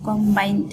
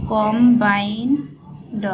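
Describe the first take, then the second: First: Said in the usual way. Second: combined stretched out slowly, syllable by syllable; slow drawn-out. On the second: Shown as a demonstration. Teacher spelling out a shorthand word for students, slowly. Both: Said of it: "উচ্চারণ করবেন কম".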